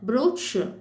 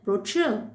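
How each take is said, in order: First: It is said with a British English pronunciation. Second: It is said with an American English pronunciation. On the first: "British இங்கிலீஷ்ல" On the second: "American இங்கிலீஷ்ல"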